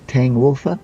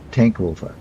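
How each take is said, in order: First: The first word ends in a soft 'ng' sound. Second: The first word ends in a hard 'nk' sound. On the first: The speaker calls it wrong. "Sorry if I got it wrong" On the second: The speaker calls it right. "It's pronounced as a K"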